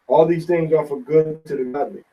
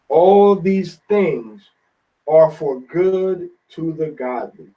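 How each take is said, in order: First: It is read fast. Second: It is read slowly.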